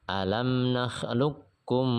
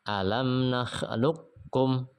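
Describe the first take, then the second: Both takes have the same delivery.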